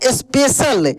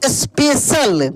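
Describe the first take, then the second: First: Said in the usual way. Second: Slowly drawn-out special; slow reading. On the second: Shown as a demonstration. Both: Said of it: "क्या पढ़ेंगे इसको?".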